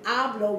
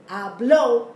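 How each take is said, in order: First: The stress is on the first syllable. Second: The stress is on the last syllable. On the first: I speak. "which means I speak" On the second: He spoke. "putting the emphasis on the last syllable"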